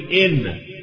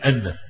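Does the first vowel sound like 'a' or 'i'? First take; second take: i; a. First: The word begins with an 'i' vowel. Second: The word begins with an 'a' vowel. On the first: The speaker calls it right. "لازم تقول إن" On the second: The speaker calls it wrong. "الناس تنسى يقول أن، نقول له يا أستاذ غلط"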